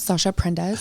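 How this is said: The name is said with an American accent. "my American accent"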